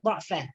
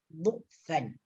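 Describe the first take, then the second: First: The word's first vowel is an 'a' sound. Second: The word's first vowel is a 'u' sound. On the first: "boleh dibaca dengan baris atas" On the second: "baris hadapan, yaitu baris dhamma"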